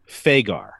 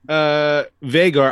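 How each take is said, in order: First: The name begins with an F sound. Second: The name begins with a V sound. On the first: This is the old-school original name. "you can say Vhagar with an F sound" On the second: This is the name as used on the show. "I will use the V sound"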